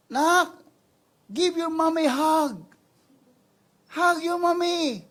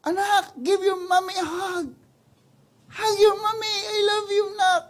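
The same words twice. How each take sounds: First: High, slow coaxing mother's plea; mother coaxing child. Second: High, loud, tearful mother's plea; mother pleading. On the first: Mother coaxing her child away from the lion, slow high plea. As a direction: gently lure the child back, slow and high. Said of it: "sabi niya". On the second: Mother begging her child to come hug her, loud tearful plea. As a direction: beg the child back with a catch in the voice. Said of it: "Mga ganun na yung nanay". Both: Acted.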